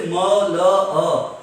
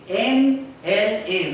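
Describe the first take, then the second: First: M L A as muh, luh, uh; phonic letter sounds. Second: M L A spelled out slowly as em, el, ay; letter names. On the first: Teacher shows what we don't say, muh-luh-uh for M L A. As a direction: sound out M L A as bare consonants, muh-luh-uh, loudly. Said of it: "We don't say M L A". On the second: Teacher shows the vowel sound starting M, slow em-el-ay. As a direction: say each letter name of M L A slowly. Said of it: "The sound is A". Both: Shown as a demonstration.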